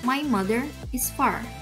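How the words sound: The r sounds are pronounced clearly, rhotic. "untuk American English dibaca ... untuk American R-nya dibaca jelas"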